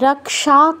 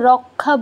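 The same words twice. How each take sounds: First: The middle cluster is said as 'ks'. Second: The middle cluster is said as 'kh'. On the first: This is the Sanskrit way. "এখানে আমরা খ কেন করছি না" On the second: This is the everyday Bengali way. "আমরা বাংলায় তো রক্ষা বলি, খ আসে"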